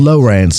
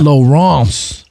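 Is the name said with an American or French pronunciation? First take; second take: American; French. First: The name is said with an American pronunciation. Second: The name is said with a French pronunciation. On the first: The speaker calls it right. "I see people in North Carolina saying Lawrence" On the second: The speaker calls it wrong. "It's too French for me"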